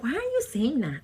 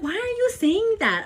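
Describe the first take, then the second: First: Said in the usual way. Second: Scandalized, much higher and louder; high, loud mock outrage. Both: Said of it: "I'm like".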